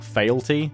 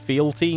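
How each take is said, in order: First: The word begins with a 'fail' sound. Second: The word begins with a 'fee' sound. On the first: The speaker calls it wrong. "not failty" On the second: The speaker calls it right. "it's fealty"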